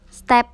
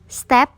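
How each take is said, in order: First: The final p ends without a puff of air. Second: The final p ends with a puff of air. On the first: "cara baca biasa" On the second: "P diakhiri dengan H"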